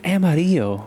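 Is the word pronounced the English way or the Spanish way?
Spanish. It is said with a Spanish pronunciation. The speaker calls it right. "This is a Mexican word, man"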